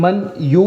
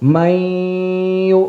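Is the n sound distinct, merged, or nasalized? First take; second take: distinct; nasalized. First: The n is said separately before the y. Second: The n merges into y with a nasal hum. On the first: "മൻ യു എന്നാണ്" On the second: "മണിക്കുക കൂടി ചെയ്യുമ്പം"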